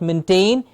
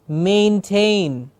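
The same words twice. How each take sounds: First: The first syllable has a short, clipped vowel. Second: The first syllable has a long A vowel. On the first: The speaker calls it wrong. "It is not maintain" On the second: The speaker calls it right. "Twice the A sound, ... not shortening any sound"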